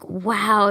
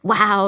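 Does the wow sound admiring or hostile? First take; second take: admiring; hostile. First: It sounds admiring and impressed. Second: It sounds hostile and aggressive.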